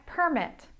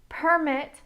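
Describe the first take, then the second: First: The stress is on the first syllable. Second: The same.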